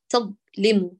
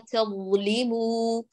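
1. يُقطع صوت ẓ فجأةً. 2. يستمر صوت ẓ ويجري بانسياب. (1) "لا نقول تظلموا بقطع صوت الضاء، تظلموا أين رخاوتها؟" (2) "ينبغي للصوت أن يجري جريان تام بإضعاف الاعتماد على المخرج، فنقول"

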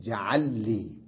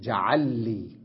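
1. يندمج اللامان فيصيران لامًا واحدة مشددة. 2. يندمج اللامان فيصيران لامًا واحدة مشددة.

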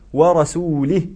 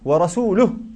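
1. تنتهي الكلمة بالكسرة. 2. تنتهي الكلمة بالضمة. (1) "بالكسر" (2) "والآية ورسوله"

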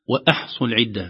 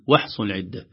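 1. توجد همزة واضحة قبل الـ h. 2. لا توجد همزة قبل الـ h.

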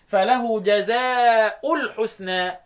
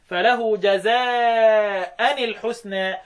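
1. تنتهي جزاء بالصوت -u. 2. تنتهي جزاء بالصوت -an. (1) "بالرفع مع بدون تنوين" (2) "بالفتح"

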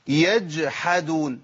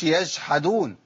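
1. صوت الجيم قبل الحاء واضح. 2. صوت الجيم قبل الحاء متغير.

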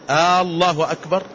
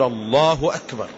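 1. الحركة الأولى ممدودة وطويلة. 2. الحركة الأولى تبقى قصيرة. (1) "إذا مد الهمزة انقلبت إلى سؤال" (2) "فيقول الله أكبر"

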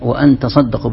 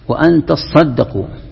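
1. صوت s قصير ومفرد. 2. صوت s ممدود ومشدد. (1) "بالتخفيف" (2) "بالتشديد"

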